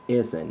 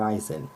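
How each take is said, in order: First: The name begins with a short 'ih' sound. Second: The name begins with an 'eye' sound. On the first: The speaker calls it right. "that's how you pronounce his last name" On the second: The speaker calls it wrong. "not Eisen"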